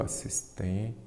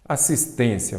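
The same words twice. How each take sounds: First: Assistência broken into syllables, softly, lingering on "tên"; dividindo em sílabas. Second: Said in the usual way. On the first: Shown as a demonstration. ("Assistência" separada em sílabas, baixinho, alongando o "tên") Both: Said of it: "vamos separar em sílaba".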